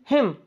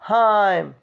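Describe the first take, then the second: First: The vowel is a short i sound. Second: The vowel glides like the vowel in ice. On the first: The speaker calls it right. "Short" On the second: The speaker calls it wrong. "नट हाइम"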